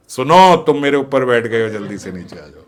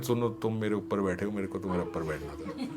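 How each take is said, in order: First: Louder, mock-secret blurt; a secret said far too loud; tipsy loud whisper that isn't one; loud "ear whisper". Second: Soft, giggly secret in the ear; hushed, playful ear-whisper. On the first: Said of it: "धीरे से नहीं बोल रहे हैं". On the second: Retold or imitated. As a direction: lean in and murmur it with a laugh. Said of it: "कान में बोल रहे हैं".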